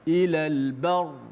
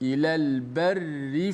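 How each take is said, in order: First: The word stops; the r is heavy. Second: The word runs on; the r is light. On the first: The reader stops at this word. "dibaca dengan tebal" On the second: The reading continues without stopping. "barri dibaca dengan nipis, dibaca dengan wasal"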